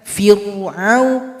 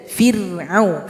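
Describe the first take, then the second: First: The r is pronounced heavy and full. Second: The r is pronounced light and thin. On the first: The speaker calls it wrong. "Jangan fir'au, fir'au. Itu kurang tepat" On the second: The speaker calls it right. "Bibir bawah tidak ikut ke atas"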